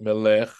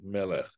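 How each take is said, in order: First: The stress is on the last syllable. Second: The stress is on the second-to-last syllable. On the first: The speaker calls it wrong. "Not melech" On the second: The speaker calls it right. "where their accent falls on the penultimate syllable"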